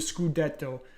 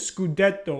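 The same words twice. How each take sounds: First: It is said with an Italian accent. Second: It is said with an ordinary English accent.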